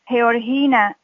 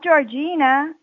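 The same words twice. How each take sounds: First: The name is said with a Spanish pronunciation. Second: The name is said with an English pronunciation. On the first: The speaker calls it right. "Georgina in Spanish" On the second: The speaker calls it wrong. "Not Georgina, as you would pronounce it in English"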